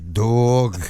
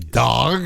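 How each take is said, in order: First: The word is said in a Bronx accent. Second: The word is said in a standard accent. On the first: "the way you say it in the Bronx" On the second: "You don't say dog"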